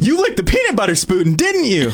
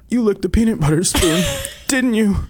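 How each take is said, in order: First: It is said in an excited way. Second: It is said in a sad way.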